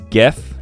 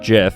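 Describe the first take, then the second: First: The word begins with a hard G sound. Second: The word begins with a J sound. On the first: The speaker calls it right. "This is GIF" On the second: The speaker calls it wrong. "because GIF would be with the J"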